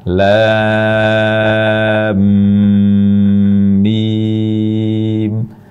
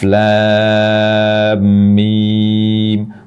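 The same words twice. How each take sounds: First: The m is doubled with a long nasal hum. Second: The m is doubled but held only briefly. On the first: The speaker calls it right. "dengan gunnah sangat sempurna" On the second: The speaker calls it wrong. "sudah double mim tapi kurang lama"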